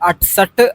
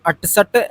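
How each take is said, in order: First: The middle consonant is a hard t sound. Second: The same.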